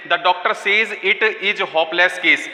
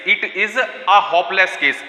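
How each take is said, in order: First: Said in the usual way. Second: "a" leaned on in a very slow "it is a hopeless case"; teacher slowly reads the corrected sentence, stressing "a"; stress on the article. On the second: Shown as a demonstration. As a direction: drag the words out and hit "a" in "it is a". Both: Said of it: "is के बाद ए आएगा".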